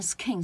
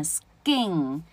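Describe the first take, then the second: First: Skin with an airy k, "s-khin"; skin, aspirated k; aspirated mistake. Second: Skin as a slow "s-gin"; skin, drawn out with no puff; unaspirated k. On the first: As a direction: say skin wrongly with a puff after s. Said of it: "你念skin是不对的". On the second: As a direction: model skin with k turned to g. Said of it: "所以是念skin". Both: Shown as a demonstration.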